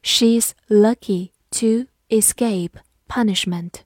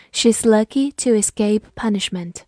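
First: Slow, deliberate sentence model; slow teacher read-aloud. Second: Said in the usual way. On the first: Shown as a demonstration. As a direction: read it slowly word by word. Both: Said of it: "好，慢读一遍".

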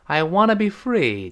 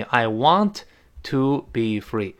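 First: "wanna" run together as one word; casual linked "wanna"; reduced "wanna". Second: "want to" as two slow, separate words; careful, unreduced "want to"; full form. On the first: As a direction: say "wanna" with no separate "to". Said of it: "读快了之后呢，往往变成wanna". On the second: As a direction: spell out "want" and "to" with a pause between. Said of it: "就相当于". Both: Shown as a demonstration.

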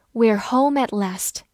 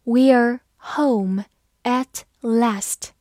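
First: Said in the usual way. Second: Very slow, word by word; slow, deliberate teaching pace; slow reading. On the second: Shown as a demonstration. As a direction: read it slowly with gaps between words. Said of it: "好，慢读一遍".

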